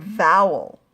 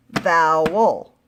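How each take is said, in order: First: Said in the usual way. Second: "vowel" slowly in two loud beats, vow-el; split into syllables. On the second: Shown as a demonstration. Teacher showing pupils two syllables, "vowel" split slowly in two. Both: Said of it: "two syllables".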